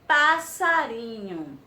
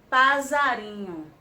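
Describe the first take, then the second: First: The middle consonant sounds like s. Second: The middle consonant sounds like z. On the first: The speaker calls it right. "nós colocamos dois S's e ele ficou passarinho" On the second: The speaker calls it wrong. "se só tivesse um S, ia ser passarinho"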